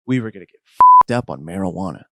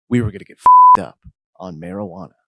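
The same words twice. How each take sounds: First: Loud restatement, pitched back down; emphatic restatement. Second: Higher, louder, hyped-up announcement; hyped declaration. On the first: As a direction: repeat it firmly, hitting the swear word loud. Same line repeated, brought down low. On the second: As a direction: declare the party plan high and loud. Celebration line, repeated for comic emphasis. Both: A narrator's reading.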